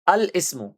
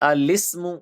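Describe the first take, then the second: First: The two parts are said separately with a glottal stop. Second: The parts are joined with no glottal stop.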